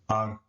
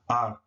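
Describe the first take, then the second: Both takes have the same delivery.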